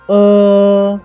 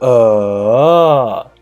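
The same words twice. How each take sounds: First: The pitch stays high and level. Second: The pitch dips down and then rises. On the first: "The first tone of uh is uh" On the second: "The third tone, it is uh"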